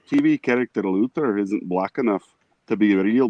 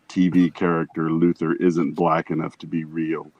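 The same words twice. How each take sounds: First: It is read in a normal voice. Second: It is read in a very deep voice. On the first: "I don't know if I can do a voice" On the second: "read that in the deepest voice you can"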